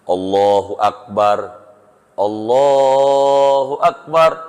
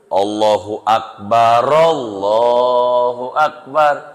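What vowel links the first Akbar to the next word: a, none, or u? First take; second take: none; a. First: The first Akbar ends in r with a stop. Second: The first Akbar flows on with an a vowel. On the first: "berhenti roknya... Sukun... roknya mati dua-duanya" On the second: "rok pertama hidup fathah"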